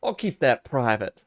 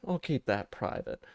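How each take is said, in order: First: Said in the usual way. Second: Softly, under the breath; quieter repeat. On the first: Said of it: "repeated aside". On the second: Real, not acted. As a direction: mutter it again to yourself. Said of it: "repeated quieter".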